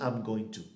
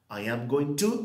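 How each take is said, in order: First: I and am merge into one short syllable. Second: I and am are said as two separate words. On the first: "This one is the contracted form" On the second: "we have your long form"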